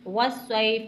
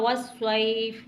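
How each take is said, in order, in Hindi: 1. यह शब्द व्यंजन 'f' पर खत्म होता है। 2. यह शब्द व्यंजन 'f' पर खत्म होता है।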